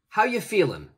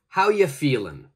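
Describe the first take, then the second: First: 'Are you' blends together and the final G drops. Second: The same.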